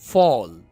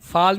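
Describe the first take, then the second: First: The vowel is a rounded 'aw'. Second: The vowel is an open unrounded 'aa'. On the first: The speaker calls it right. "आप इसको फॉल पढ़ते हैं ना" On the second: The speaker calls it wrong. "फाल नहीं होगा ना"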